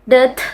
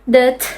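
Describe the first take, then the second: No difference in how they are said.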